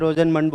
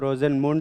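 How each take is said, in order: First: The last syllable has an 'uh' vowel, like 'mund'. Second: The last syllable has an 'oo' vowel, like 'moond'. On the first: "वैसे रोजेनमंड बोलना चाहिए।" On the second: "तुम लोग क्या बोलते हो? रोजेनमुंड reduction बोलते हो?"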